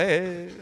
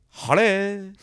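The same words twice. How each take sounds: First: Posh white voice. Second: Put-on posh greeting, higher; posh white voice. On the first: Retold or imitated. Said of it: "my dad goes". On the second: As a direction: fake posh accent on one word. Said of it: "their posh white voice".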